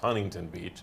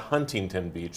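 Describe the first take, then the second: First: The T in Huntington is dropped. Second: The T in Huntington is clearly pronounced. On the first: The speaker calls it right. "You have to say it without the T" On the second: The speaker calls it wrong. "It's not"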